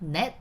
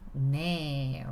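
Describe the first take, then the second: First: The word ends with a final consonant sound. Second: The word ends with a vowel sound. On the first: "넷 turns into 네" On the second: "removing the bottom consonant"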